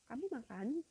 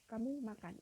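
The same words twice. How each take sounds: First: It is said with question intonation. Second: It is said with statement intonation.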